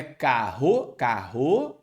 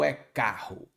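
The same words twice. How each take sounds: First: "carro" as ca-RRÔ, final syllable stressed and rising; stress wrongly on last syllable. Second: "carro" as CA-rro, first syllable stressed, falling; stress on penultimate syllable. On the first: Teacher testing students with a wrong option, "carro" stressed on the final RRO. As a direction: drag "carro" slowly onto a stressed, questioning final RRO. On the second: Teacher giving students the right option, "carro" stressed on CA. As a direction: say "carro" with the weight on CA. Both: Shown as a demonstration. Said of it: "a sílaba tônica é a penúltima".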